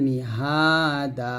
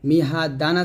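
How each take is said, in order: First: The word ends on a long 'a' vowel. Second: The word ends with an 'n' sound. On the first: This is how it is read when stopping on the word. "থামলে হবে মিহাদা" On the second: This is the written form with the double vowel mark. "মিহা দান আছে"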